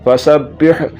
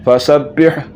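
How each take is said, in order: No difference in how they are said.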